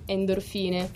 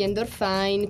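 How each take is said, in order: First: The name is pronounced the Italian way. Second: The name is pronounced the English way. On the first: The band wants to seem more Italian. "quando vogliamo essere un po' più italiani" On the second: The band wants to seem more international. "quando vogliamo essere un po' più international"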